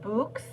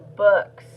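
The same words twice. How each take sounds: First: The vowel is a long 'ooh' sound. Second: The vowel is a short 'uh' sound. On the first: The speaker calls it wrong. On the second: The speaker calls it right. "or uh"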